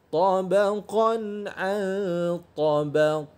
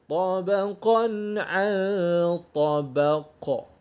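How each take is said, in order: The two takes are said the same way.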